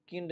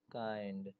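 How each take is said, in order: First: किंड with a short i; wrong short-i vowel. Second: काइंड with an eye sound; long-i diphthong. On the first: Teacher warning against a misreading, किंड with short i. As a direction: say किंड with i instead of ai. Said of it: "इसको किंड नहीं पढ़ेंगे". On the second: Teacher reading out "kind" for learners, काइंड with ai. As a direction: say काइंड with ai, not short i. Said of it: "आई को आई की तरह पढ़ते हैं". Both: Shown as a demonstration.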